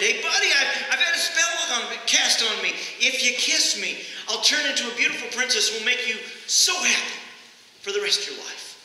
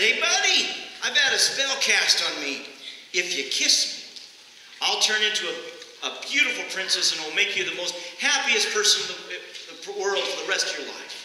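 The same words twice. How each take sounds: First: Fed-up frog repeating its offer with a push; exasperated frog. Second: A lightly voiced cheeky frog making its pitch; talking frog. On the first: Retold or imitated. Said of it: "and exasperated the frog". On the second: Talking frog pleads with preacher.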